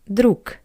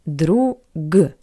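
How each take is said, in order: First: The final consonant is a voiceless k. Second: The final consonant is a voiced g. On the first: "but we pronounce it as друг" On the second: "we see the letter G"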